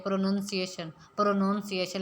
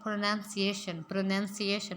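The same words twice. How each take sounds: First: "प्रोनंसिएशन" said as "pro-noun-ciation"; the usual wrong "pronounciation"; common mispronunciation. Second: "प्रोनंसिएशन" with "nun", not "noun"; correct pronunciation. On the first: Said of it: "हम लोग आम तौर पर क्या बोलते हैं". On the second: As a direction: model "pro-nun-ciation" cleanly. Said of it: "इसको सही तरीके से बोल सकते हैं". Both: Shown as a demonstration.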